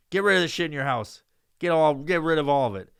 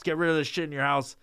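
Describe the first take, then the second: First: Louder, forceful repeat of the order; louder demand. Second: Said in the usual way. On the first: Retold or imitated. Son ordering his mom to clear out the house, louder insistence. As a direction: lean in and insist harder.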